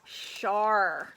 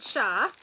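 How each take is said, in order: First: It ends with a clear r sound. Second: It ends without an r sound, New England style.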